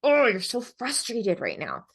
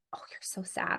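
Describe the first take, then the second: First: Slow, emphatic mirroring of frustration; match the child's big feeling with emphasis; matched intensity. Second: Hushed, gentle sympathy; soft, near-whispered mirroring; soft soothing voice. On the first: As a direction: lean into OH and "frustrated", drawn out and higher. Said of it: "if you notice, there's a different". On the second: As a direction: breathe it softly to a sad child. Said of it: "you might say". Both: Shown as a demonstration.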